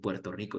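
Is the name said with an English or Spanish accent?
Spanish. It is said with Spanish sounds and stress. The speaker calls it wrong. "no dicen Puerto Rico"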